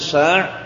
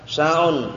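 First: The word ends on a bare consonant. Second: The word ends with an added -un ending. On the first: The speaker calls it right. "Jadi disukun saja" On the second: The speaker calls it wrong. "Jangan dikasih harokat"

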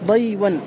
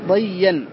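First: The w sound is kept after the y. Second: The w becomes y and merges into doubled y. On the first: This is an irregular form used by some speakers. "وكقولهم للهر" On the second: This is the form the rule predicts. "والقياس"

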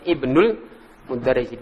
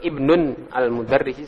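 First: The first word drops its -un ending. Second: The first word keeps its final -un ending. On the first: The speaker calls it right. "Ibnul Mudarrisi dihapus tanwinnya" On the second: The speaker calls it wrong. "Ini kalau Ibnun Al-Mudarrisi salah"

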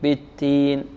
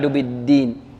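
First: The d sound lacks voicing, like a t. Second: The d sound is fully voiced. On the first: It sounds like the word for figs. The speaker calls it wrong. "لا يعطي الدال جهرها أو حقها من الجهر" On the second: It means the Judgment (religion). The speaker calls it right. "فما يكذبك بعد بالدين"

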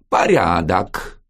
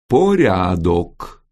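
First: The first vowel is reduced, like an a. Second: The first vowel is a full, clear o. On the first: This is how people actually say the word. "Прононсирует" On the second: This is how the word is written. "Пишут"

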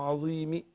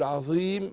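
First: A faint, partial i is heard after the m. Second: The long vowel is held short, final m silent. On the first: "بالرام ... اختلس حركة الكسر" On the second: "القصر"

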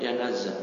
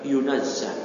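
First: The first vowel is an 'a' sound. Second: The first vowel is a 'u' sound. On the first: The speaker calls it wrong. "Bagusnya bukan yanazza" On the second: The speaker calls it right. "tapi yunazza"

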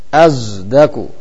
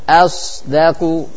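First: The consonant sounds like a z. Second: The consonant is a clear emphatic s. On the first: "azdaku seperti zai" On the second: "harus jelas sound-nya"

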